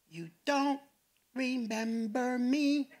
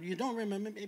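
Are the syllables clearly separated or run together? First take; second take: separated; run together. First: Each syllable is said distinctly and separately. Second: The syllables run together in ordinary speech.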